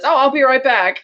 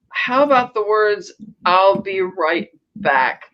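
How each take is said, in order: First: Higher-pitched, tossed-off mock promise; breezy excuse. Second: Slow, drawn-out mock reproach; pointed retort. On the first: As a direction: toss it off as an easy exit line. Imagined Bond casually leaving lovers. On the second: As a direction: space the words out pointedly. Retold rebuke from an old flame.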